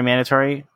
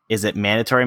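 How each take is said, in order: First: Mandatory? asked high and doubtful, rising; stress on mandatory. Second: Said in the usual way. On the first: Shown as a demonstration. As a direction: lean on mandatory? like you doubt it.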